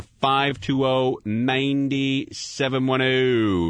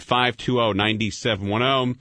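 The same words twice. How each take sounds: First: Very slow, spelling out each digit; slow number read. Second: Said in the usual way. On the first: Shown as a demonstration. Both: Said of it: "Anything you like talking about on the air".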